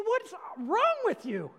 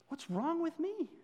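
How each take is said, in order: First: Loud, high, slow rebuke on wrong; exasperated shout at the listener; flipping out. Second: Self-rebuke. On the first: Acted. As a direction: drag out What's wrong with you in a loud, high exasperated cry. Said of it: "sorry for flipping out on you". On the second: Real, not acted. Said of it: "I'm talking to myself really right now".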